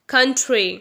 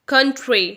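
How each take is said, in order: Both takes have the same delivery.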